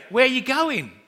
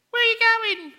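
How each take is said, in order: First: Put-on higher, eager child's question; little boy, more natural. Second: Put-on much higher, piping little boy asking; small child's voice. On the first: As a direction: ask it like a keen small son. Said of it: "so he would say". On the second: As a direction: squeak it like a five-year-old. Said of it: "she would hear this voice".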